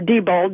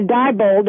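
First: Diebold said the other way; second way of saying Diebold; alternative pronunciation. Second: Diebold said one of two ways; first way of saying Diebold; variant pronunciation. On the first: News reporter correcting to the other option, alternative pronunciation. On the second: News reporter offering the host one pronunciation, variant pronunciation. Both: Shown as a demonstration. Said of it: "depending on how you pronounce it".

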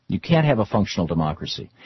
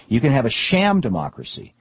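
First: "can't" weighted against "can"; a firm "You can't have a functional democracy"; stress on can't. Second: "sham" punched with a falling tune; a scornful "sham democracy"; stress on sham. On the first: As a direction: lean into "can't" to deny it. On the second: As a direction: sneer lightly on "sham". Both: Shown as a demonstration.

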